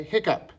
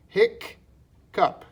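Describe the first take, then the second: First: Said in the usual way. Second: "hic, cup" with a pause between; syllable by syllable. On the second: Shown as a demonstration. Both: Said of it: "that's gonna be k".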